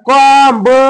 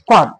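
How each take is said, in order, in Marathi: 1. शेवटचा b चा आवाज उच्चारला जातो. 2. शेवटचा b चा आवाज मूक असतो. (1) "कॉम ब म्हणायचं नाही" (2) "काय म्हणायचं कॉम"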